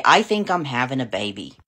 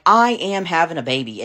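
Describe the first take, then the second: First: Said in the usual way. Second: Put-on "I am having a baby" with firm weight on "I am"; emphatic retold "I am", no doubt left; stress on AM. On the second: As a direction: insist on "am", spoken out in full. Corrected, firmer repeat of announcement.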